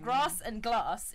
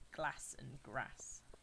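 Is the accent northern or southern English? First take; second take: southern; northern. First: The vowels are long, southern English style. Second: The vowels are short, northern English style.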